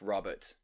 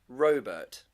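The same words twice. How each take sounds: First: The name is said in its usual way. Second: The name is said to sound like robot. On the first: This is the ordinary, less exciting name. The speaker calls it wrong. "Why do we pronounce the name Robert like Robert" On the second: The person sounds like a cool robot. The speaker calls it right. "it would be so much cooler to call them Robert? Because are they a robot?"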